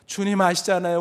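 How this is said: It is said in a voice near tears. He is starting to cry. "울먹거리기 시작합니다"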